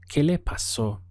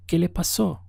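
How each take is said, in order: First: Said in the usual way. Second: "¿Qué le pasó?" asked as a question, pitched high through "pasó"; questioning intonation. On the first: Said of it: "we could also ask this as a question". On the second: Shown as a demonstration. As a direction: lift your voice on "¿Qué le pasó?" to ask it. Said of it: "simply use the intonation of our voice".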